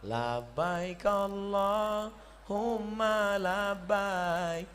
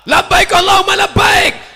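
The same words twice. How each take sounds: First: It is said softly, like a Javanese. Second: It is said loudly, like a Sumatran.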